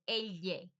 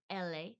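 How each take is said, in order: First: Elle as EL-yay, wide tongue; Spanish elle. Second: Elle as EL-ay with plain L; Spanish letter L. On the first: Showing learners the double L, elle as EL-yay. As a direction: glide from l into y on elle, 'EL-yay'. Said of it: "the tongue gets a lot wider". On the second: Naming the single L for learners, elle as EL-ay. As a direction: say elle without any y, 'EL-ay'. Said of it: "which is the L". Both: Shown as a demonstration.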